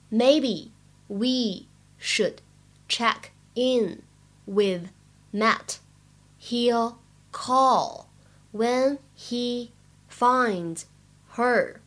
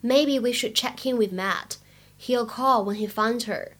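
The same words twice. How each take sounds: First: Very slow reading of "Maybe we should check in with Matt", a pause between words. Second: Said in the usual way. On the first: Shown as a demonstration. Teacher modelling the dialogue for learners, slow word by word. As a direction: spell out the sentence one word at a time, slowly.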